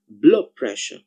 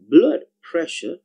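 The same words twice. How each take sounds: First: The d at the end of blood becomes b. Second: The d at the end of blood is kept.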